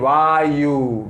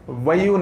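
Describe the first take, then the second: First: The first vowel is long. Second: The first vowel is short. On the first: The speaker calls it right. "because a with dash" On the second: The speaker calls it wrong. "vayu nahi"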